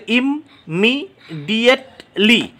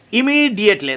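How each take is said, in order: First: "ইমিডিয়েটলি" slowly chopped into spaced syllables. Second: Said in the usual way. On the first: Shown as a demonstration. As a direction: count out "ইমিডিয়েটলি" with pauses between parts. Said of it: "পাঁচটা syllable রয়েছে ইমিডিয়েটলিতে". ("ইমিডিয়েটলি" ধীরে, ভেঙে ভেঙে) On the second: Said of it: "পাঁচটা syllable রয়েছে".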